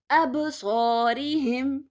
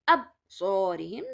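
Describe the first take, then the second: First: The consonant is said with a bounce. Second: The consonant is said without a bounce. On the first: The speaker calls it right. "Ba is a qalqala letter" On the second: The speaker calls it wrong. "I cannot say absorihim. That's wrong"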